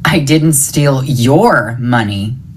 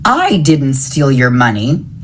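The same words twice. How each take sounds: First: The stress falls on the word your. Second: The stress falls on the word I. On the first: The money taken belonged to someone else. "It was somebody else's money" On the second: Someone else took the money. "It was someone else"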